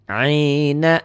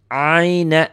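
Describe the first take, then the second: No difference in how they are said.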